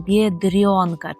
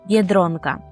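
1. Звук «р» пом'якшений перед голосною. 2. Звук «р» твердий, не пом'якшений. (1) "Чомусь вам хочеться оце «р» пом'якшувати" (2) "Ми повинні казати твердо «дро»"

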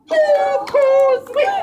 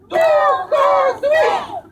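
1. Fraza jest powiedziana normalnym głosem. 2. Fraza jest powiedziana głośniej niż wcześniej.

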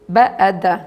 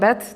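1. Wymawia się literami, jedna po drugiej. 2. Wymawia się jako jedno słowo. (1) "to się tak pojedynczo wymawia" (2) "nie BED"

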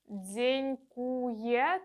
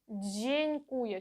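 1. Починається зі свистячого звука 'dz'. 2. Починається з м'якого шиплячого звука 'dj'. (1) "це неправильно, не повторюйте" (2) "через ж, дж, а не через дз"

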